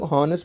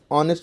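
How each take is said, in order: First: हॉनेस्ट with the h sounded; the wrong sounded h; wrong honest. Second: ऑनेस्ट with silent h, starting on "aw"; the right silent h; correct honest. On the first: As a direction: say हॉनेस्ट with a breathy h at the start. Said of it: "बल्कि ऑनेस्ट पढ़ा जाता है". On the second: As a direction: say ऑनेस्ट as "aw-nest". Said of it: "ऑनेस्ट पढ़ा जाता है". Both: Shown as a demonstration.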